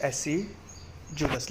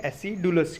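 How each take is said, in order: First: Acidulous drawn out very slowly and softly, with a "j" sound for the d; correct pronunciation. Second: Acidulous with a hard "d", like a-si-DOO-lus; spelling pronunciation. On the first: Teacher quietly giving students the true sound, acidulous with a "j". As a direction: say acidulous slowly and softly, as a-SID-joo-lus. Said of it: "लेकिन हम क्या याद रखेंगे?". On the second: Teacher showing students the version to remember, acidulous with a hard "d". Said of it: "क्योंकि डी का sound है". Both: Shown as a demonstration.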